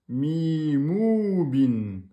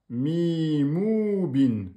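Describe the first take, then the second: Both takes have the same delivery.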